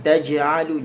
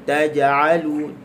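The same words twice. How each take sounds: First: "taj'alu" with air leaking out on the j; wrong demo: breathy release on the j of "taj'alu"; windy j. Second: Slow "taj'alu" with a bounced, clean j; qalqalah. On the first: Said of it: "jangan bunyi angin". ("taj'alu" salah, jim berbunyi angin) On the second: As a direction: bounce the j in "taj'alu" without any hiss of air. ("taj'alu" dengan qalqalah pada jim) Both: Shown as a demonstration.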